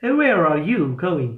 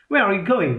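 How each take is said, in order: First: Slow, low English accent in measured beats. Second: Quicker English accent, words linked. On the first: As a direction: say it like an Englishman, stretching the rhythm. (अंग्रेज़ी लहजे में, धीमी लय से) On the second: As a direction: run it together in English rhythm, falling at the end. (अंग्रेज़ी लहजे में, जुड़े हुए शब्द) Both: Shown as a demonstration. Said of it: "अंग्रेज को ऐसे बोलना है".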